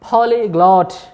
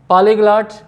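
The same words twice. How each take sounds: First: The vowels are rounded 'aw' sounds. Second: The vowels are open, unrounded 'ah' sounds. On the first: The speaker calls it right. "ये इसका correct pronunciation है" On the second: The speaker calls it wrong. "अगर आपने ऐसे ही पढ़ा है तो गलत है"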